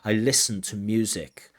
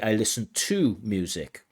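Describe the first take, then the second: First: The word 'to' is weak and reduced. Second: The word 'to' is full and stressed. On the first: The speaker calls it right. "we tend to use the weak form of prepositions when they are dependent prepositions" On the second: The speaker calls it wrong. "we don't say I listen to music like we would in a phrasal verb"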